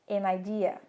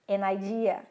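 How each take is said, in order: The two takes are said the same way.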